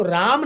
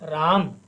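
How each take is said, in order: First: राम with the final म fully voiced, Sanskrit style; Sanskrit pronunciation. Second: राम with the final m clipped, Hindi style; Hindi pronunciation. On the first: Teacher shows the Sanskrit way to say राम, full final syllable. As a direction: sound the full म at the end of राम. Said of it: "जब हम इसका संस्कृत में उच्चारण करते हैं". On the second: Teacher shows the Hindi way to say राम, clipped ending. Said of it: "Hindi में उच्चारण करते हैं तो हम कहते हैं". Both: Shown as a demonstration.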